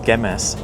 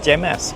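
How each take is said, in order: First: It begins with a hard, guttural G sound. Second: It begins with a soft G sound. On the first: The speaker calls it right. "as I now pronounce it" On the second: The speaker calls it wrong. "I've been saying Gemas. Apologies to all Malaysian people for butchering their language"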